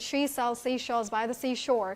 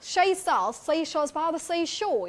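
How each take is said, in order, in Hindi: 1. यह American लहजे में बोला गया है। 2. यह Cockney लहजे में बोला गया है। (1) "And then we talk about American" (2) "if we talk about Cockney"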